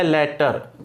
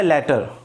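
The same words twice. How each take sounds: First: लेटर said clearly as "letter" with a short e; pronounce latter. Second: लेटर repeated as "letter", falling; pronounce latter. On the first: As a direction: model the word लेटर for students. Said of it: "इसका pronunciation होता है". (लेटर को साफ़ "लेटर" बोलकर दिखाना) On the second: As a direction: model लेटर again with a falling finish. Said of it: "इसका pronunciation क्या होता है?". (लेटर दोबारा उतरते सुर में बोलना) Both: Shown as a demonstration.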